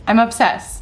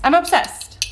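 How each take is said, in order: First: Said in the usual way. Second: Pitched up high with a rising end; squealing I'm obsessed in delight; excited gush. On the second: Real, not acted. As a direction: gush over the jar, voice lifting. Repeats obsession about yogurt jar.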